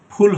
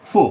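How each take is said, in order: First: "ফুল" with both lips, aspirated "phul"; wrong f. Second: "ফু" with English f, upper teeth on lower lip; labiodental f. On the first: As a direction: say "ফুল" with a puffed p-h. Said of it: "ফুল হবে না". ("ফুল" দুই ঠোঁটে ফ দিয়ে) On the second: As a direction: bite the lower lip lightly for "ফু". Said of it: "উপরের দাঁত দিয়ে নিচের ঠোঁটকে". ("ফু" দাঁত-ঠোঁটের f দিয়ে) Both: Shown as a demonstration.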